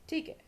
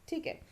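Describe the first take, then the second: No difference in how they are said.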